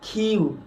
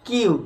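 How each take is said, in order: First: The k is said with a puff of air. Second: The k is said without a puff of air. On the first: The speaker calls it right. "এর সঠিক উচ্চারণ" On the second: The speaker calls it wrong. "আমরা কি উচ্চারণ করি"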